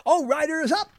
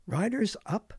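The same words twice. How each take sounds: First: High-pitched racetrack call; mock jockey call. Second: Said in the usual way. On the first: Radio host acting out jockey lingo, high mock call. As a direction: call it out like the start of a race.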